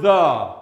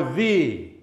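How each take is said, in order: First: "the" punched louder as a strong "thee"; emphatic "the". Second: Said in the usual way. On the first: Shown as a demonstration. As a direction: hit "the" hard as the key word. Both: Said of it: "his point hinges on the word".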